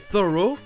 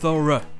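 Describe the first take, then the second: First: The ending is a full 'oh' vowel. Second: The ending is a weak 'uh' vowel. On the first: This is the American pronunciation. "j'ai prononcé les deux O U G H comme la première prononciation. Officiellement, c'est la prononciation américaine, O" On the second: This is the British pronunciation. "officiellement au Royaume-Uni ça se prononce E"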